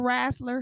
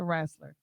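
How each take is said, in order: First: The word is said with a Southern twang. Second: The word is said plainly, without a twang.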